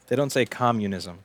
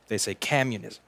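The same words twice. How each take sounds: First: Said in the usual way. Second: "communism" said in a mock Boston accent; "communism" with a Boston twang; Boston pronunciation. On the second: Shown as a demonstration. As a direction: twist "communism" the way Boston says it.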